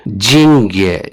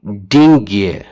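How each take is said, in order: First: Russian pronunciation demo; correct pronunciation. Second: डिंग्ये read as spelled with a hard d; reading the Russian spelling. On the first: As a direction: say जिंग्ये slowly the Russian way. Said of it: "pronunciation है इस तरह है जिंग्ये". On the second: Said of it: "लेकिन spelling है डिंग्ये". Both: Shown as a demonstration.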